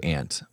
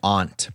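First: Aunt is said a non-East Coast way. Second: Aunt is said the East Coast way. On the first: This is how the speaker's family does not say it. The speaker calls it wrong. "We don't do aunt" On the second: This is how the speaker's family says it. The speaker calls it right. "We're from the East Coast"

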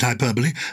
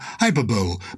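First: The word does not end like 'bowl'. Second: The word ends with a sound like 'bowl'. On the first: The speaker calls it right. "I pronounce it hyperbole" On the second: The speaker calls it wrong. "Some people say, as in Super Bowl"

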